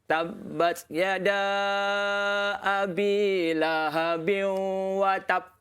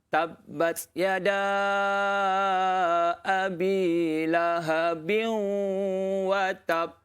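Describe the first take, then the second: First: The final b is cut off without bouncing. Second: The final b is released with a bouncing echo. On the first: The speaker calls it wrong. "kalau dia baca oh. macam ni" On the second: The speaker calls it right. "Papan anjal ni"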